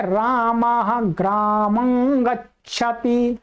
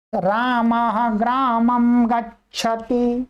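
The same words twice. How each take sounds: First: ग्रामं slowly, ending in a humming ng; nasal anusvara. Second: ग्रामं ending in a clear lip-closed m, drawn out slowly; m pronunciation. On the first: Teacher showing students the other view, anusvara from the nose. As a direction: let ग्रामं ring through the nose as graamang. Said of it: "पर नासिका से बोला जा रहा अनुस्वार". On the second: Teacher showing students how some people say it, anusvara as m. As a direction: say ग्रामं slowly as graa-mam. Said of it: "कुछ लोग इसका म उच्चारण करते हैं". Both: Shown as a demonstration.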